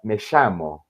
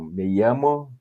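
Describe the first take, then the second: First: The ll is a hissing sh-like sound. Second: The ll is a plain y-like sound.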